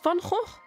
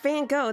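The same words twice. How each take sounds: First: The name is said with a Dutch pronunciation. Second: The name is said with an English pronunciation. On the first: The speaker calls it right. "It's Van Gogh. You have to do it with the" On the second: The speaker calls it wrong. "It's not Van Gogh. That's not his name"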